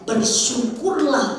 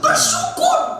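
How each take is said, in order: First: It is said flatly, without strong emphasis. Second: It is said with strong, forceful emphasis.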